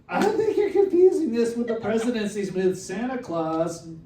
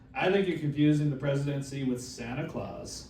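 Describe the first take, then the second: First: It is said in a put-on character voice. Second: It is said in his normal voice.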